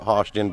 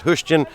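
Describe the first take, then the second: First: The first syllable sounds like 'hosh'. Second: The first syllable sounds like 'hush'. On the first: This is the speaker's own way of saying it. "I call it Hoshton" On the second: This is how the locals say it. "they pronounce it Hushton"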